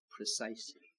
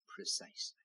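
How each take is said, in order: First: Low, hushed single word; soft echo. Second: Breathy whispered repeat; whispered echo. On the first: Preacher answering his own question, softly. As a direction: let the answer settle quietly. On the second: Preacher repeating his answer to the congregation, whispered. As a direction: breathe the word out like a secret. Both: Acted.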